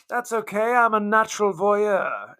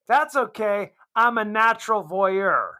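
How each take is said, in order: First: It is said in a put-on British accent. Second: It is said in the speaker's plain accent.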